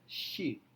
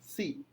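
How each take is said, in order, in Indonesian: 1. Kata ini diawali dengan bunyi sh. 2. Kata ini diawali dengan bunyi s biasa. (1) "padahal harusnya she" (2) "Maka dia ucapkan si"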